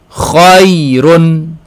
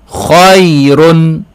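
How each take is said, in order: No difference in how they are said.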